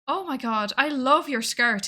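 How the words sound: It is said in a warm, friendly tone. The compliment is sincere. "Happy, friendly, approachable, nice"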